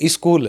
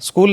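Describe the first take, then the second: First: It is said with a Haryanvi-influenced pronunciation. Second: It is said with a standard English pronunciation. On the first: The speaker calls it wrong. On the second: The speaker calls it right.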